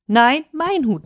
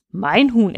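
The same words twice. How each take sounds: First: Higher, mild narrated cry; geschrien. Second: Firm reply, stress on MEIN; calmly firm claim at normal pitch; erwidernd. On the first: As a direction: protest in a raised pitch. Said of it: "schrie Turfa". (höher, gemäßigt aufgeschrien) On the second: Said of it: "erwiderte Fatima". (bestimmt erwidert, ohne Schreien) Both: A narrator's reading.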